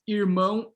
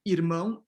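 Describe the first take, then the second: First: The r is made with the tongue curled back. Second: The r is a quick tongue tap. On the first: This pronunciation is stigmatized nationally. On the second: This pronunciation is prestigious nationally. "the tap"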